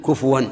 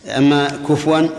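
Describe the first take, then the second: First: كفوا with a clear u on the fa, kufuwan; kufuwan with damma. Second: كفوا drawn out slowly, the fa barely voweled; slow careful كفوا as first said; kufuwan said slowly. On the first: Teacher correcting a listener, careful damma on the fa. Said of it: "بضم الفاء". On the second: Teacher to students, slowly saying the word in question. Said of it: "ما تبين الضمة كما ينبغي". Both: Shown as a demonstration.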